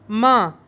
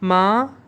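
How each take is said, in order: First: It is said with the fourth tone. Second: It is said with the first tone.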